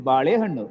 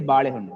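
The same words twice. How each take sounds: First: One syllable is stressed more than the others. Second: All syllables carry the same stress. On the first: The speaker calls it wrong. "We don't say balehannu" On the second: The speaker calls it right. "We just say balehannu. We equal, equal stress to all the sounds"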